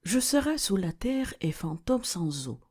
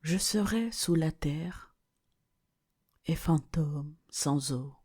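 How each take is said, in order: First: One unbroken, more melodic phrase; flowing verse repeat. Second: Level recitation broken by pauses; measured verse recitation. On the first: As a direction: say the whole verse without pausing. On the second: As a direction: recite it in separate, weighted phrases. Quotes verse, slowly with pauses. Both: Acted.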